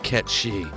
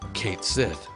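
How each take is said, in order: First: The name sounds like 'Ket She', ending in sh. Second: The name sounds like 'Kate Sith', ending in th. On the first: The speaker calls it right. "the true pronunciation of his name" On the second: The speaker calls it wrong. "I pronounced his name Kate Sith"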